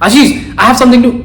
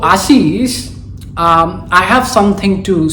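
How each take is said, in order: First: It is spoken fast without pauses. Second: It is spoken slowly with pauses. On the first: The speaker calls it wrong. "big no, don't do that" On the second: The speaker calls it right. "spoken slowly"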